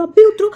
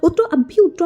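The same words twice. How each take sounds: First: A much higher, louder repeat of उतरो, at full force; louder yell. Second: High, loud order to get out; yelling get out. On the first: Driver repeats his order to get out, now yelling at the top. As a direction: push भी and उतरो up into a real shout. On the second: Driver orders the stranger out of his taxi, high loud yell. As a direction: bark it at the intruder. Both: A narrator's reading. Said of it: "चिल्ला के बोला".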